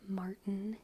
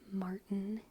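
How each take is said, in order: First: The T sound in the middle is dropped. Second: The T sound in the middle is dropped.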